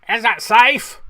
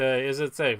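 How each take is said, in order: First: Loud, high mock film-villain voice; Laurence Olivier. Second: Said in the usual way. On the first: Host quoting a famous Marathon Man line, hammed-up impression. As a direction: shout it as an over-the-top movie impression. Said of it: "pretty good Oliver, Olivier impression". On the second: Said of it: "that was a pretty good Oliver".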